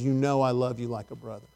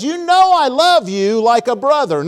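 First: Low, hushed, subdued avowal; retold tearful answer. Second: Higher, louder retold avowal; insistent answer. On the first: Preacher voices Peter crying before Jesus, hushed and subdued. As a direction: answer softly and low, as if near tears. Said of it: "then Peter starts crying". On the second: Preacher voices Peter answering Jesus, insistent. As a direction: insist on it, swelling on KNOW and LOVE.

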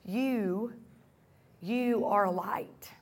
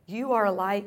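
First: Soft unvoiced whisper. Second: Said in the usual way. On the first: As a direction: breathe it like a secret. Intimate repeat of scripture line.

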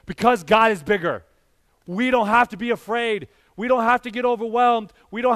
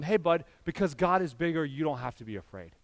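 First: Louder, bolder take of the bedtime line; preached proclamation. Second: Put-on gentle reassurance to a child. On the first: Acted. Pastor proclaiming to the congregation that they need not fear, loud and bold. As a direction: declare it to the whole church. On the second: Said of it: "And I'll tell them".

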